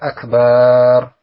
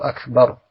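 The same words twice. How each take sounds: First: The vowel in 'bar' is drawn out long. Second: The vowel in 'bar' is short. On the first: The speaker calls it wrong. "Jangan sampai dibaca akbar" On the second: The speaker calls it right. "makanya baknya pendek saja"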